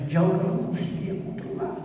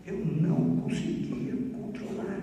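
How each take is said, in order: First: Said in the usual way. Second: Hushed, half-sung, slow repeat; soft sung echo. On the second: Shown as a demonstration. Preacher echoing his own words to the congregation, hushed and half-sung. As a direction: let it fall away into a soft sung murmur.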